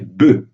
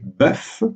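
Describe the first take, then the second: First: The vowel is closed and the final f is silent. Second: The vowel is open and the final f sounds. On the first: It refers to several animals. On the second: It refers to one animal.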